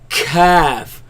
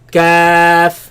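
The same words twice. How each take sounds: First: The k is coughed out harshly. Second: The k is light, from the palate. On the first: The speaker calls it wrong. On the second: The speaker calls it right.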